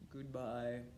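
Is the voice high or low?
low. It is said in a low voice.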